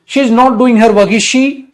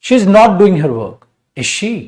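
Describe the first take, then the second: First: It runs on with no pause before the tag. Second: There is a short pause before the tag. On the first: The speaker calls it wrong. "ऐसे थोड़ा ना साथ साथ बोल दोगे" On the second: The speaker calls it right. "रुकना है वहां"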